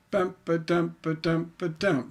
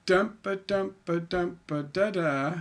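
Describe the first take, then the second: First: Bump ba dump beat landing on a stressed dump; chanted bump ba dump ending on a stressed dump; masculine beat. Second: Dump ba beat trailing on light da da; chanted dump ba ending on unstressed da da; feminine beat. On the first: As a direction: tap the beat and land hard on the last dump. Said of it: "There's nothing at the end". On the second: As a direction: tap the beat and let the end trail off. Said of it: "There's that little thing at the end". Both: Shown as a demonstration.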